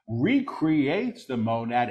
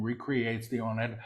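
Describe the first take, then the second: First: Deliberate full-voice repeat; measured proclamation. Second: Quick, soft undertone; hushed preview. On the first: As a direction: proclaim it clearly, word by word. Same words repeated in full voice. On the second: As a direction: say it softly and rapidly before proclaiming it. Quick soft take before repeating aloud. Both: Real, not acted.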